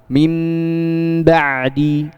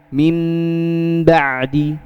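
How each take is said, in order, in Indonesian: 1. Bibir tertutup rapat pada bunyi nasal. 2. Bibir tertutup rapat pada bunyi nasal.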